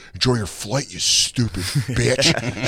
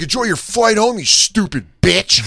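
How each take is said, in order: First: Said in the usual way. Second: High, loud mock yell, slowing on "you stupid bitch"; sneer-yell it at the passing woman; imitated yell. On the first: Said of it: "this guy's like". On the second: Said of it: "He starts yelling at this lady".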